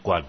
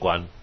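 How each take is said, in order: First: The word is said with a falling tone. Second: The word is said without a falling tone. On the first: The speaker calls it right. "观字去声一定要念观" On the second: The speaker calls it wrong. "不念观"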